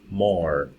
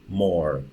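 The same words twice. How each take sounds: The two takes are said the same way.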